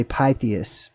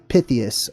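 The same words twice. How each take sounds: First: Pythias with a long i, "PIE-thee-us"; alternative pronunciation of Pythias. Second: Pythias with a short i, "PITH-ee-us"; first pronunciation of Pythias. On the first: Host offering another way to say it, Pythias as "PIE-thee-us". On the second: Host giving the historian's name, Pythias as "PITH-ee-us". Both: Shown as a demonstration. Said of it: "or you could say".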